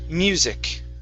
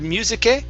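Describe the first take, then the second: First: The word stops sharply on the final k. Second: The word ends with a drawn-out final sound. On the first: The speaker calls it right. "stop on that C sound" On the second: The speaker calls it wrong. "Instead of musique"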